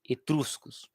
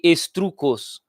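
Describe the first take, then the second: First: The s sound comes in the second syllable. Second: The s sound comes in the first syllable. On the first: The speaker calls it right. "mas é etruscos" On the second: The speaker calls it wrong. "Eu sempre falei estrucos"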